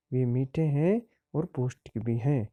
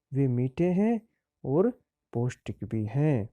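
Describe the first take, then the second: First: Said in the usual way. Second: वे मीठे हैं and पौष्टिक भी हैं broken into chunks with pauses; phrase by phrase. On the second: Shown as a demonstration. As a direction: dictate वे मीठे हैं, और, पौष्टिक भी हैं in separate pieces.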